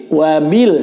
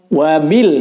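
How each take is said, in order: The two takes are said the same way.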